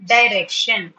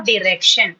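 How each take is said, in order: First: "Direction" as die-REC-shun; long I at the start of "Direction"; "dai" pronunciation. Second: "direction" as dih-REC-shun; short I at the start of "direction"; "di" pronunciation. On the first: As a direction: say "Direction" with a first syllable like "die". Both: Shown as a demonstration. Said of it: "however you pronounce it".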